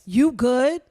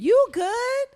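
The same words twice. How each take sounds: First: It sounds threatening and aggressive. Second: It sounds concerned and caring.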